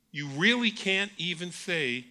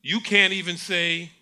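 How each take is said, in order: First: "really" langsam gedehnt, fallend; langsam, Gewicht auf "really"; stress on really. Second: Can't gepunchtes, lauter; "can't" hart und lauter betonen; stress on can't. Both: Shown as a demonstration.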